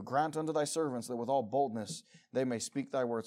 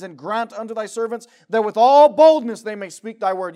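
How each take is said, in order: First: Softer, gentler reading of the plea; soft prayerful reading. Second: Loud, fervent reading of the plea; loud fervent prayer. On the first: Preacher reading the plea for boldness again to the church, soft and humble. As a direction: murmur the verse like a humble prayer. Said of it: "same verse said loud before". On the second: Preacher reading the apostles' plea for boldness, loud and fervent. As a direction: cry out the verse for boldness. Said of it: "same verse said soft after". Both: Shown as a demonstration.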